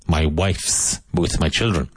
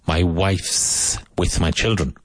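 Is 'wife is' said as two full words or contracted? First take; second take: contracted; contracted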